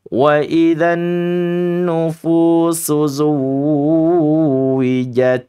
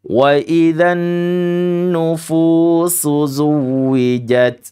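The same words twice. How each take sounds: First: The w sound in zuwijat is drawn out long. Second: The w sound in zuwijat is kept short. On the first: The speaker calls it wrong. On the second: The speaker calls it right.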